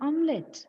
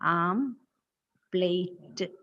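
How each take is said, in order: First: It sounds like 'om-let', with no p sound. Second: It sounds like 'am-plate', with a p sound. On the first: The speaker calls it right. "What is the correct pronunciation? It is ഓംലെറ്റ്" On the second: The speaker calls it wrong. "We call it as ആംപ്ലേറ്റ്"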